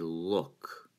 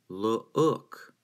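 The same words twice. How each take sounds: First: The vowel is one single smooth sound. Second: The vowel is split into two separate sounds. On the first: The speaker calls it right. "you say look. The two O's are slurred together as if they were one vowel sound" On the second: The speaker calls it wrong. "as if there's two O sounds in there. You don't say"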